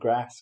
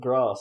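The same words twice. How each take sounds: First: It is said with a northern English vowel. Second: It is said with a southern English vowel.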